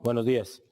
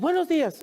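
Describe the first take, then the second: First: It is said in an angry tone. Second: It is said in a very happy tone.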